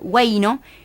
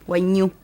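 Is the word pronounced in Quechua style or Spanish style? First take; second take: Spanish; Quechua. First: It is said in the usual Spanish way. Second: It is said in the Quechua way. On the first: "en la literatura usual en el Perú se escribe Huayno" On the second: "algunos dicen Huayñu, que es en quechua"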